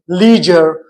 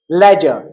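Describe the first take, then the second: First: It is said in an American accent. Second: It is said in a British accent. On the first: "While in American English it is leisure" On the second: "Ledger in British English"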